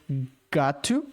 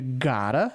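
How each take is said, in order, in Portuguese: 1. As duas palavras são ditas separadamente e completas. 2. As duas palavras são ditas juntas, como uma só. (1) "ele falou got to" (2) "juntando fica gotta"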